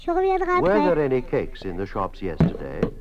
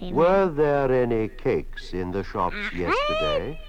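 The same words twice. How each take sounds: First: The question is spoken fast. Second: The question is spoken slowly. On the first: "Now, fast" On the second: "First, spoken slowly"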